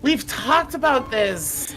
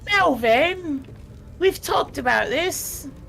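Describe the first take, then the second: First: It is said in his own normal voice. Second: It is said in a put-on character voice.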